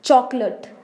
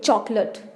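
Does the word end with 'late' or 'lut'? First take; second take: lut; lut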